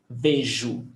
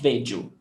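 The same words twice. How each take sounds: First: The middle consonant is a j sound. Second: The middle consonant is not a j sound. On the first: The speaker calls it right. "J has the sound of J" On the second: The speaker calls it wrong. "it's not vejo"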